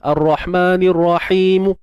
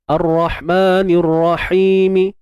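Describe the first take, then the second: First: The final consonant ends silent with no vowel. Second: The final consonant ends with a faint short vowel. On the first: "kalau yang baris bawah dia tak boleh jadi ismam ... tak boleh gitu" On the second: "dibaca satu per tiga harakat"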